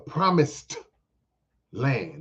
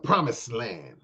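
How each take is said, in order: First: The word ends with a clear D sound. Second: The word ends without a D sound. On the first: The speaker calls it right. "with a D" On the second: The speaker calls it wrong. "Don't mispronounce it. It's not the promised land"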